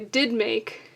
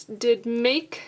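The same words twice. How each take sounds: First: "did make" with DID stressed as well as make; stress on DID too. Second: "did make" with did unstressed, make stressed. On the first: Teacher showing an alternative scansion, stress on both "did" and "make". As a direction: give "did" weight alongside "make". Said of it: "did also being stressed". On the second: Teacher scanning a line of poetry, stress on "make" only. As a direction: let "did" pass lightly and land on "make". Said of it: "I don't think that's the case here". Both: Shown as a demonstration.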